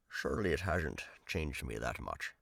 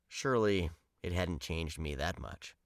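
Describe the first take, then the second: First: It is read in an impersonated Scottish film-star voice. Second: It is read in the speaker's ordinary voice.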